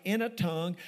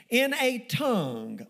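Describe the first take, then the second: First: Said in the usual way. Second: "in a tongue" drawn out slowly, with weight on each word; emphasized phrase. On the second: Shown as a demonstration. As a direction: underline "in a tongue" by stretching it out. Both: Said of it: "underline that word".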